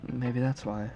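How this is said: It is said in a put-on Yuri voice.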